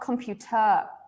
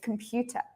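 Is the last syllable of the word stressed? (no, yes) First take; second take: yes; no. First: The stress falls on the last syllable. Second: The stress does not fall on the last syllable. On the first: The speaker calls it wrong. "it's not three, right? It's not computer" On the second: The speaker calls it right. "It's computer"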